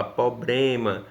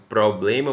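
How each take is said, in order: First: "problema" said as "poblema", without the r; teacher showing an informal pronunciation; nonstandard pronunciation. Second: Said in the usual way. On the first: Shown as a demonstration. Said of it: "você fala problema". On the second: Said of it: "Como a gente já falou".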